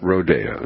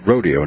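First: It is said with a Spanish-style pronunciation. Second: It is said with a plain English pronunciation. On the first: The speaker calls it wrong. "Not the Spanish spin on the word" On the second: The speaker calls it right. "Rodeo, not rodeo"

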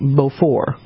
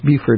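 First: It is said with a French pronunciation. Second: It is said with the local pronunciation. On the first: This is how it would be said in France. "it would be pronounced in France" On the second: This is how it is said locally. "but it's pronounced Beaufort here"

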